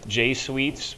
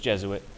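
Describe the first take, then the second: First: The word begins with a long 'jay' sound. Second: The word begins with a short 'jez' sound. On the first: The speaker calls it wrong. "you might think it's J-Suites" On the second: The speaker calls it right. "It's not. It's Jesuit"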